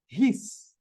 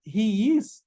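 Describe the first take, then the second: First: "his" said as one quick syllable for "he's"; contracted form. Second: "he is" as two separate full words; full form. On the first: Teacher to students, showing the contraction "he's". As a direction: run "he is" together as "his". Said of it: "você pode falar". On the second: Teacher to students, giving the full "he is". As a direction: say "he is" unreduced. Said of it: "Em vez de falar". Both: Shown as a demonstration.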